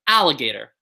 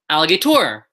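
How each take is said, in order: First: The stress is on the first syllable. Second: The stress is on a later syllable. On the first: The speaker calls it right. "Ah is the loudest part of the word" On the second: The speaker calls it wrong. "Nobody says alligator"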